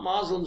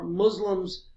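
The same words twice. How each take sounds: First: It uses the older, anglicized pronunciation. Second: It uses the newer, more Arabic-like pronunciation. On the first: This is the form an older generation used. The speaker calls it wrong. "not Muslims anymore" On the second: This is the form used now. The speaker calls it right. "Muslims read"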